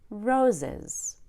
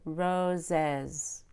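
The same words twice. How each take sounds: First: The stress is on the first syllable. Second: The stress is on the second syllable. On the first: The speaker calls it right. "we usually stress the first syllable" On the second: The speaker calls it wrong.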